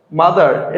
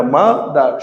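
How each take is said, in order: First: Said in the usual way. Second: "mother" slowly in two beats, ma, dar; split into syllables. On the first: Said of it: "এটা হবে না". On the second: Shown as a demonstration. Teacher proving it isn't one syllable, "mother" split ma, dar. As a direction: pause inside "mother" after ma. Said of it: "has one syllable?".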